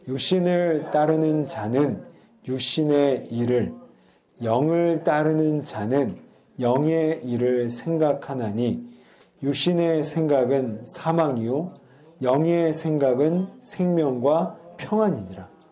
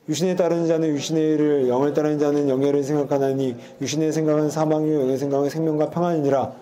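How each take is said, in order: First: It is read slowly. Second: It is read fast.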